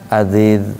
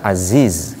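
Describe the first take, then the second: First: The z sounds soft, like a th. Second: The z has a clear hissing sound. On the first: The speaker calls it wrong. "berarti masuk ke zal nantinya" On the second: The speaker calls it right. "karena dia mempunyai sifat uh, sofir"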